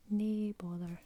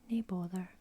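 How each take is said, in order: First: Nae bother spoken aloud, NAY BOTH-er; voiced Scots phrase. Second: Nae bother whispered, NAY BOTH-er; whispered Scots phrase. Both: Shown as a demonstration. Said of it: "That just means no".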